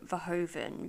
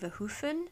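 First: The name is said with an anglicised pronunciation. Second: The name is said with its original pronunciation. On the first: This is the form people know him by. "that is how I have heard people who worked with him pronounce it" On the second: This is the technically correct form of the name. "the pronunciation would be Verhoeven, technically"

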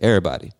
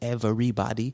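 First: The word is said quickly in a reduced form. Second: The word is said in its full careful form. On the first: "I say everybody. It's faster. It's easier" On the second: "I don't say everybody"

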